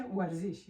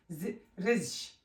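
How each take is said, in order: First: ورزش said clearly with the و sound at the start; with the vowel. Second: رزش drawn out slowly with no و at the start; without the vowel. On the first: Teacher showing pupils the correct word with its vowel, ورزش said clearly. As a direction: give ورزش its full و, a bit slow. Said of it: "اما اگه واو دادیم". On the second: Teacher showing pupils the word without its vowel, slow drawn-out رزش. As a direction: sound out رزش slowly, dropping the و, as a broken word. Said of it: "اگه ما و شما حرف واو یعنی از اینجا پس کنیم". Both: Shown as a demonstration.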